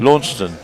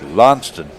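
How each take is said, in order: First: The name is said in the general UK way. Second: The name is said in the far southwestern way. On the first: "the U K version" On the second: "if you're even more in the southwest"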